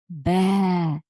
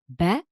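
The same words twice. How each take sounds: First: The vowel is drawn out long. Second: The vowel is short and clipped. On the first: The speaker calls it right. "we stretch the sound" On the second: The speaker calls it wrong. "instead of saying"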